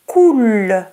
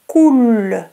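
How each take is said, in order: Both takes have the same delivery.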